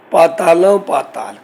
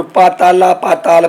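First: First ਪਾਤਾਲਾਂ ends in a nasal aan; nasalised ending. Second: ਪਾਤਾਲਾ with a plain, un-nasalised final aa; without nasalisation. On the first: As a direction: slowly draw out ਪਾਤਾਲਾਂ with a nasal final vowel. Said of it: "ਪਹਿਲੇ ਪਾਤਾਲਾਂ ਦੇ ਕੰਨੇ ਉੱਤੇ ਬਿੰਦੀ ਦਾ ਉਚਾਰਨ ਕਰਨਾ". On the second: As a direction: say ਪਾਤਾਲਾ slowly, no nasal ending. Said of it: "ਇਹ ਕੋਈ ਅਰਥ ਨਹੀਂ ਬਣਦੇ". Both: Shown as a demonstration.

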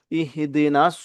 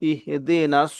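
The two takes are said the same way.

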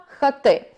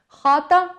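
First: Хати stressed on the final syllable, ТИ; stress on last syllable. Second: Хата stressed on the first syllable, ХА. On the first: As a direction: move the stress onto ТИ in хати. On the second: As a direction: hit the ХА in хата. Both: Shown as a demonstration. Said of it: "наголос тут переходить із одного складу".

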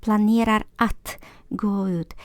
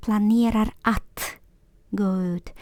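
The two takes are said the same way.

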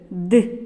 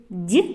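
First: Д as hard, unpalatalized "d"; hard Д, set apart; hard consonant. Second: Д as palatalized "d'"; soft Д, like "dyi"; soft consonant. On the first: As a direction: isolate Д with a firm dark release. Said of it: "називається твердим приголосним". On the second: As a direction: isolate Д with tongue raised. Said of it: "називається м'яким приголосним". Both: Shown as a demonstration.

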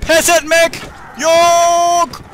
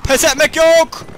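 First: Very slow, high, loud stretched war cry; drawn-out war cry. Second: High, loud defiant shout. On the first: Commander on his last stand, slow stretched war cry. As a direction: hold every syllable like a last stand. Refusing to give up. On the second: Commander refusing to surrender to bandits, loud defiant shout. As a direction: yell it to rally yourself. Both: Pretend.

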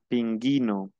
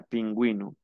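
First: PINGUINO as "pin-gee-no", hard G and no W sound; silent U. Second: PINGÜINO as "pin-GWEE-no", U heard as W; sounded U. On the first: Teacher showing the word without the two dots, silent U. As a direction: drop the U in PINGUINO: "pin-GHEE-no". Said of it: "no llevara los dos puntos". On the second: Teacher contrasting the word with its two dots, sounded U. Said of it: "yo pronuncio la U". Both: Shown as a demonstration.

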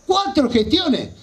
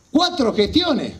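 No difference in how they are said.

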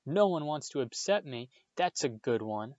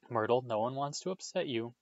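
First: Higher, mildly wailing retort; howled. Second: Gently reassuring, mildly voiced; calm, placating tone; soothing. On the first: Myrtle echoing Hermione bitterly, a mild howl. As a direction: throw it back, wounded and scornful. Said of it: "howled Myrtle". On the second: Hermione calming a hurt ghost, mildly soothing. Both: A narrator's reading.

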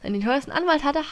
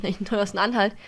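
First: "Anwalt" said carefully with a clear w; corrected pronunciation. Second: "Anhalt" said with an h sound instead of w; "Anhalt" slipped in place of "Anwalt", h spoken in the middle; mispronounced. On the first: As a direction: stress "Anwalt", the w sound clearly spoken. ("Anwalt" sorgfältig korrigiert, mit deutlichem w) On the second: ("Anhalt" versprochen statt "Anwalt", mit h in der Mitte) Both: Real, not acted. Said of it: "Anwalt, Anhalt".

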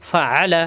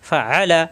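The two takes are said the same way.

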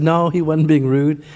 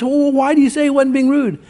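First: Low, slow defence of a friend; calm reassurance. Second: Higher-pitched retold objection; puzzled challenge. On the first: Retold or imitated. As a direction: brush it off gently, pitched down. Pastor calmly defends the man. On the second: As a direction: question it, pitched up, not convinced. Companion challenges the pastor.

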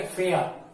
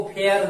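First: फेयर with the final R silent, like "feh-uh"; correct pronunciation. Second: फेयर with a sounded R at the end; wrong pronunciation. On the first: Teacher modelling it for pupils, फेयर with the R dropped. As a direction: let फेयर fall away on a vowel, no R. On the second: Teacher showing pupils how not to say it, फेयर with final R pronounced. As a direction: say फेयर ending on a clear R. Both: Shown as a demonstration. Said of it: "इसको फेयर नहीं बोलेंगे".

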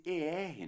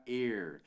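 First: "er" as a dark "ur" sound; drawn-out "er" with a neutral vowel; correct ER ending. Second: "er" as a clear "ehr", as spelled; wrong ER ending. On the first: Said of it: "é mais pra er". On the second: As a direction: open "eh" vowel in "er". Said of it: "do que pra er". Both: Shown as a demonstration.

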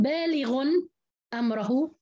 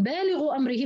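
First: بالغ أمره as baalighun amrahu; tanween, open ra. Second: بالغ أمره as baalighu amrihi, no n; no tanween in بالغ أمره, then ri-hi; kasra on the ra. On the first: Teacher contrasting other reading, tanween and open ra. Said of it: "الراء بدها تكون مفتوحة". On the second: Teacher showing Hafs's reading, kasra on ra. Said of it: "بتكون هذه مكسورة". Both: Shown as a demonstration.

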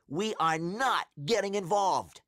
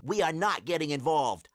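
First: Higher, with NOT punched and set apart; insist, hitting the word "not"; emphatic repeat. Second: Said in the usual way. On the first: A narrator's reading. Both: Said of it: "I repeat".

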